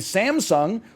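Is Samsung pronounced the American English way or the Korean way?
American. It is said with an American English pronunciation. The speaker calls it wrong. "in the commercials in the U S, they say Samsung"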